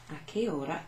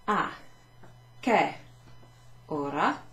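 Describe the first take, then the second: First: Said in the usual way. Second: "A" "che" "ora" each said alone with gaps; word by word. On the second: Shown as a demonstration. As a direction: break "A che ora" into single words, che louder. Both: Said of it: "So let me show you that".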